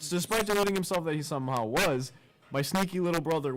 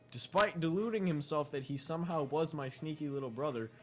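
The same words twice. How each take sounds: First: There is a pause after "was". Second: It runs straight on with no pause after "was".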